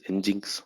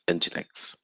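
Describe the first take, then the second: First: The name is not said as 'engine X'. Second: The name is said as 'engine' plus 'X'. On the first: The speaker calls it wrong. "that's not correct pronunciation" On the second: The speaker calls it right. "however you call engine and then X"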